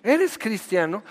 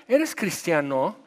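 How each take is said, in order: First: Higher, shocked question; incredulous. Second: Drawn-out, probing question; slow questioning. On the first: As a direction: ask it as if caught out. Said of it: "ya te diste un balazo". (pregunta incrédula, más aguda) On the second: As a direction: ask it slowly, testing them. (pregunta lenta y sondeando) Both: Retold or imitated.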